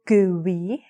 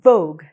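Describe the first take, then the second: First: The ending after the G is sounded out. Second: The word ends cleanly on the G sound. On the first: The speaker calls it wrong. "[name] didn't say Vogue" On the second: The speaker calls it right. "She said Vogue, like the magazine"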